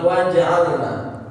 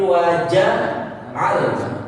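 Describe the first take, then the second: First: The j is stopped with a bounce and no vowel. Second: The j is followed directly by a vowel. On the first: The speaker calls it wrong. "bukan sukun, bukan apa namanya qalqalah, bukan waja'alna" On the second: The speaker calls it right. "tapi waja'alna. Nah, hidupkan huruf jimnya"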